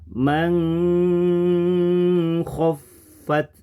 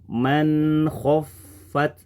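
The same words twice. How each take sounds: First: The n is concealed and nasalized before kh. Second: The n is pronounced clearly before kh. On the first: The speaker calls it wrong. "kemudian kita rubah menjadi" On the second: The speaker calls it right.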